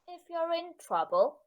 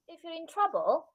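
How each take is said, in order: First: The voice makes a smaller, partial rise. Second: The voice makes a full, high rise.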